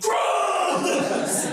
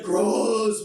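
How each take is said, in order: First: Put-on disgusted kid yell. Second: Said in the usual way. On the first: Kid reacts to math books.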